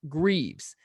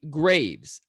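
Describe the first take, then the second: First: The name is said with the first E sounded. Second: The name is said with the first E silent. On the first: "the way Alex did on the podcast" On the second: "with the first E silent"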